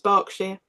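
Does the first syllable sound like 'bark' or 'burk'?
bark. The first syllable sounds like 'bark'. This is how the English say it. The speaker calls it right. "but it's Berkshire ... we pronounce it bark"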